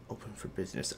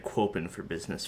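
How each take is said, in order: First: Said in the usual way. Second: "Quopen" said with a kw sound in front of open; misreading. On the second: Shown as a demonstration. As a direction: read "Quopen" as kwoh-pen, a silly misreading. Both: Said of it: "I thought that said".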